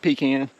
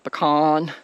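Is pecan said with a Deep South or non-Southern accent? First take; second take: Deep South; non-Southern. First: Pecan is said the Deep South way. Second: Pecan is said the non-Southern way.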